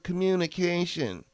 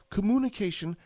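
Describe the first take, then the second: First: The word is pronounced in a coarse, vulgar way. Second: The word is pronounced carefully and in standard form. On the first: The speaker calls it wrong. "not the gross, vulgar communication" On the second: The speaker calls it right. "I pronounced it properly"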